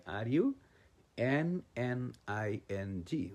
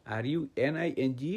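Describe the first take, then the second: First: "এন এন" spelt slowly as two separate Ns; corrected double-N spelling. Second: Said in the usual way. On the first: Shown as a demonstration. Teacher correcting learners' spelling of running, slow double-N spelling. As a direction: spell out both "এন এন" letter by letter, unhurried. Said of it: "এখানে বলতে হবে". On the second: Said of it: "বললে হবে না".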